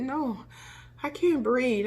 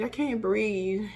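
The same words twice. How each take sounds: First: Higher, anxious plea; retold panic. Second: Fading, slower plea; slower, quieter repeat. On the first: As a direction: insist you can't breathe, worried. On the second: Retold or imitated. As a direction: let it sink, worried. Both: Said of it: "And I said".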